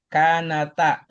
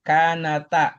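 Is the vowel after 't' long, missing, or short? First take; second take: short; short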